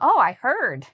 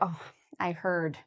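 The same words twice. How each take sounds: First: It is said in a happy, positive tone. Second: It is said in a sad, sympathetic tone. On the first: The news is good. "you can say it in a positive way for good news" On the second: The news is bad. "if somebody says something sad"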